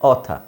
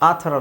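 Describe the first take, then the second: First: The first vowel is a rounded 'aw' sound. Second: The first vowel is an open 'ah' sound. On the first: The speaker calls it right. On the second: The speaker calls it wrong.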